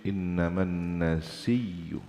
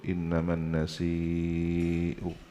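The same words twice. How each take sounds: First: A doubled consonant with no glottal stop. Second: A long vowel followed by a glottal stop. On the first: This is a minority reading. "ada yang dibaca tasydid" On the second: This is the majority reading. "mad wajib ya"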